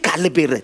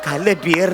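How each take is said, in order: First: The second word has a short 'ber' vowel. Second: The second word has a long 'beer' vowel. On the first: The speaker calls it right. "ते वाईट विचार त्याला म्हणतात काल बेर" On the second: The speaker calls it wrong. "अरे काल बियर नाही रे"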